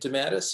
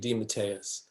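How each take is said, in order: First: The name is said in an Americanized way. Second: The name is said in the Italian way. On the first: "it got Americanized into De, DeMattis" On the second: "it's really DeMatteis"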